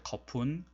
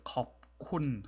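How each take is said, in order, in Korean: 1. p 소리는 다음 음절에 합쳐져요. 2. p 소리는 k 앞에서 그대로 남아요. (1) "좀 빨리 발음할 때" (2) "컵, 콘 하는 것이 되게 어렵죠"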